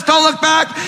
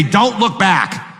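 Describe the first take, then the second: First: High-pitched pleading call, don't look back; urging voices. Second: Slow Lot. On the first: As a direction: urge him on from far above, high and bright. Voices urging Lot onward. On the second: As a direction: let Lot plead it slowly. There's Lot saying. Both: Acted.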